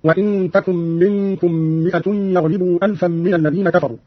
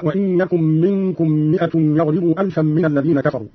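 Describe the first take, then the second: First: "تكن" with t, as takun; feminine ta. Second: Said in the usual way. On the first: Shown as a demonstration. Teacher showing Qalun's reading, "تكن" said takun. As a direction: start "تكن" with a t, not a y. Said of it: "قرأ قالون بالتاء على التأنيث هكذا". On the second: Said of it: "قرأ قالون بالتاء على التأنيث".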